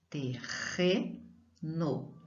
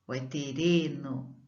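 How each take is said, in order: First: "Terreno" slowly and softer, double R as a throaty h; slow quiet demo of the correct strong R. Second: "terreno" with a light tapped r; teacher offers the weak-R reading; wrong weak R. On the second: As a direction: test the tapped version of "terreno". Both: Shown as a demonstration.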